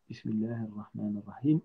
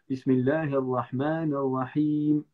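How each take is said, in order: First: It is said at a softer, normal volume. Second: It is said much more loudly.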